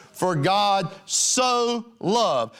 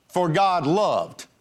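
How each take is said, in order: First: "so" drawn out slow and stressed. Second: Said in the usual way. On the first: Shown as a demonstration. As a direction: lean hard on "so", very slow. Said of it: "My Bible says". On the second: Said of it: "He didn't just say".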